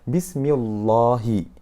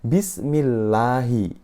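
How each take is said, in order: First: The L is pronounced thick and heavy. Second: The L is pronounced thin and light. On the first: The speaker calls it wrong. "Yang salah adalah" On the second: The speaker calls it right. "Sehingga dibacanya adalah"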